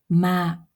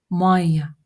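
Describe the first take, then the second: First: The word ends in a plain long vowel. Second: The word ends in an added ya syllable. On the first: This is the standard form. "Ма- это вода" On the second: This is the everyday spoken form. "в разговорной речи, да, вы можете услышать такое слово не ма, а майя"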